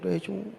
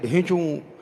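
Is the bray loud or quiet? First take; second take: quiet; loud. First: The bray is quiet and fading. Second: The bray is loud and big.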